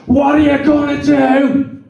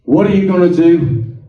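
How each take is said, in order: First: High, slow roared question; imitated roar. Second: Lightly voiced God, a little firmer; God speaking. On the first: God roars into falling Alan's ear, imitated roar. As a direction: roar it slowly as God would, pitched high. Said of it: "You roared at me". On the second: Speaker quotes God's question to Alan, lightly voiced God. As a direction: put the question as God would, mildly. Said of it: "He said".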